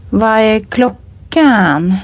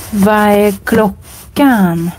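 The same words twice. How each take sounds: First: "Vad är klockan?" said slowly, each syllable marked short or long. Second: "Vad är klockan?" very slow, with a long stressed "klockan"; rhythm demo. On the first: Teacher to class, showing the rhythm of "Vad är klockan?" slowly. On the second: Teacher to class, modelling the rhythm of "Vad är klockan?" very slowly. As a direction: stretch the long syllable in "klockan". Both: Shown as a demonstration. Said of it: "Så kort, kort, långt, kort".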